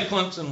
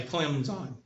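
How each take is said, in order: First: "Clemson" as "Clemp-sun". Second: "Clemson" as "Clem-zine"; softer, lower "Clemson", ending in "zine"; Clemson without the P. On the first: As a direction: sound a P in the middle of "Clemson". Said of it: "Clemson with a P". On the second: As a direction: mimic announcers, saying "Clemson" with Z and no P. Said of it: "They won't say Clemson with a P". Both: Shown as a demonstration.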